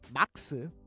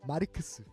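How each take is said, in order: First: The name is said with two short syllables. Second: The name is said with four syllables, Japanese-style. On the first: "which is probably the proper pronunciation of Marx" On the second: "we say it the Japanese way"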